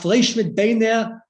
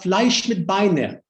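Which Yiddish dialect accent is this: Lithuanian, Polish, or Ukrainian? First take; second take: Ukrainian; Polish. First: It is said in a Ukrainian Yiddish accent. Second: It is said in a Polish Yiddish accent.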